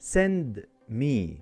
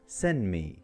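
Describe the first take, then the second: First: The d at the end of send is pronounced. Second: The d at the end of send is dropped.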